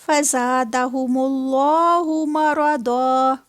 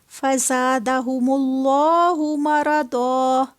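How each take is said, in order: The two takes are said the same way.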